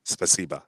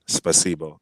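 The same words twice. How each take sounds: First: Spasiba ending in an open "bah"; spoken pronunciation. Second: Spasibo ending in a round "boh"; spelling pronunciation. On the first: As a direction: say spasiba with A as the last vowel. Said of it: "so you pronounce it spasiba". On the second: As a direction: say spasibo with the written O sounded. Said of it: "it's actually spasibo". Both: Shown as a demonstration.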